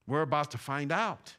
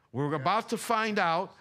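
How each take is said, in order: First: Said in the usual way. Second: Raised, forceful preacher's warning; emphatic warning. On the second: Real, not acted. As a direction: hammer the warning home, higher. Repeats warning with more force.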